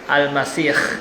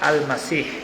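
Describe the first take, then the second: First: The middle consonant is a rasping kh sound. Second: The middle consonant is a breathy h sound. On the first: It means the one with an ugly face. "pakai kho" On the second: It means the one who travels or anoints. "dengan pakai hak"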